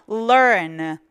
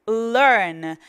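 No difference in how they are said.

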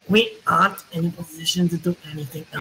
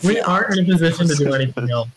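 First: The voice sounds like a German accent. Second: The voice is the speaker's ordinary voice. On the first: "You're just German now" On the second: "just don't do your regular voice"

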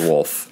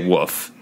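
First: The L sound is clearly pronounced in the word. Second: The L sound is dropped from the word. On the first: This is not how the speaker normally says it. "I don't say wolf" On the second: This is how the speaker normally says it. "And I say woof"

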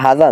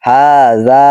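First: Both vowels are short and not stretched. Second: Both vowels are long and stretched. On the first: The speaker calls it wrong. "উচ্চারণ কিন্তু এরকম না" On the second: The speaker calls it right. "হার উপর একটা টান আছে, যাতেও একটা টান আছে"

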